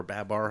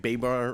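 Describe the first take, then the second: First: "Babar" with a short A, BAB-ar; short open first vowel in "Babar"; alternative pronunciation of Babar. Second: "Babar" with BAY as the first syllable; long A opening "Babar", like bay; alternative pronunciation of Babar. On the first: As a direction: say "Babar" as BA-bar, not BAY-bar. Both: Shown as a demonstration. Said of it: "however you wanna say it".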